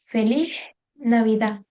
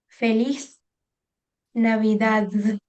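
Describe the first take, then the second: First: The final consonants are softened or dropped. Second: The final consonants of both words are heard. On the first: "we don't pronounce it at all. So we say" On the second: "in Spanish from Spain, it will sound something like"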